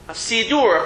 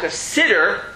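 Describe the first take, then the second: First: The word is said as siddur. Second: The word is said as sitter. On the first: The speaker calls it right. "That's the correct way of reading it" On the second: The speaker calls it wrong. "That's how they call it"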